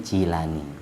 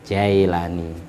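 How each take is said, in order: First: The first vowel sounds like 'ee'. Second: The first vowel sounds like 'eye'. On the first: This follows the Arabic reading. The speaker calls it right. "bacanya Jilani" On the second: This follows the English reading. The speaker calls it wrong. "kalau orang Inggris bacanya Jailani"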